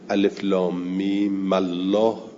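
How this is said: The mim takes an a-vowel and links into Allah. "حر کمیم بالفت"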